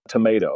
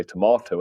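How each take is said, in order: First: Tomato said to-MAY-to; American-style "tomato", middle vowel as in day; American pronunciation. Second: Tomato said to-MAH-to; British-style "tomato", middle vowel a long ah; British pronunciation. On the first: British expat showing host his American habit, tomato with a MAY in the middle. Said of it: "I'm gonna say". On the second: British expat showing host his dropped habit, tomato with a MAH in the middle. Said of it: "I'm not gonna bother to say". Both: Shown as a demonstration.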